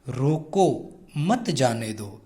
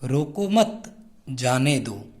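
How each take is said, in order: First: There is a pause right after 'roko'. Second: There is a pause right after 'mat'. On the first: It asks to stop someone. "रोको के बाद में अल्प विराम चिन्ह का प्रयोग किया है। तो मैं थोड़ी देर रुकूंगा।" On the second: It asks to let someone go. "मत के बाद में लगा दिया। तो इसको हम कैसे पढ़ेंगे अब"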